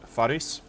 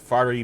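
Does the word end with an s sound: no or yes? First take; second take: yes; no. First: The word ends with an s sound. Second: The word ends without an s sound. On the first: The speaker calls it right. "at least I am pronouncing the S on the end" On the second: The speaker calls it wrong. "I was saying it Fari before. Uh, that is incorrect"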